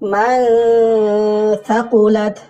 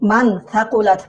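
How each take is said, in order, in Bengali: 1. n ধ্বনিটি অনুনাসিক গুঞ্জনের মধ্যে চাপা পড়ে যায়। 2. n ধ্বনিটি পুরোপুরি ও স্পষ্টভাবে উচ্চারিত হয়।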